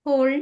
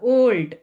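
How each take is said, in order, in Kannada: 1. ಈ ಪದ h ಶಬ್ದದಿಂದ ಶುರುವಾಗುತ್ತದೆ. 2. ಈ ಪದ ಸ್ವರದಿಂದ ಶುರುವಾಗುತ್ತದೆ, h ಇಲ್ಲ. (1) "ಹೋಲ್ಡ್ ಅಲ್ಲ"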